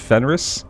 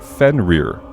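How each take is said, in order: First: The word ends with a clear final S sound. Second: The word ends without a final S sound. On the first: The speaker calls it right. "but I guess it's Fenris?" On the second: The speaker calls it wrong. "it just ends without the S"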